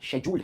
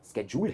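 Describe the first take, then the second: First: It starts with a 'sh' sound, British style. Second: It starts with a 'sk' sound, American style. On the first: "शेड्यूल्ड एक UK pronunciation है" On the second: "स्केड्यूल्ड US pronunciation है"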